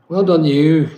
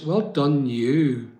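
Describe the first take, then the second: First: Well done, you louder, punching well; emphatic praise. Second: Said in the usual way. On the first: Real, not acted. Praising a hard-working viewer, louder with weight on well. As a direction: hit well hard and proud.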